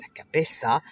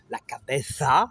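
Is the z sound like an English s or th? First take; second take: s; th. First: The z is said like a hissing s. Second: The z is said with tongue between teeth. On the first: This is how it is said in Latin America and southern Spain. "Z et C se prononcent comme le S français" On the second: This is how it is said in most of Spain. "avec la langue entre les dents"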